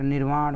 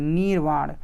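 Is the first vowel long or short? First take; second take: short; long. First: The first vowel is short. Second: The first vowel is long. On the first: The speaker calls it right. "छोटी की मात्रा, निर्वाण होगा" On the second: The speaker calls it wrong. "नीर नहीं, बड़ी की मात्रा नहीं"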